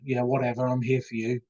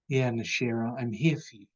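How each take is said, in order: First: It sounds dismissive and uncaring. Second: It sounds sincere and warm.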